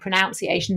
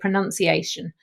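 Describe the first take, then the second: First: The word is said in a casual local way. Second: The word is said in a standard way. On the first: This is how the speaker actually tends to say it. The speaker calls it wrong. "I'm even saying pronunciation" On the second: This is how it should be said. The speaker calls it right. "instead of pronunciation"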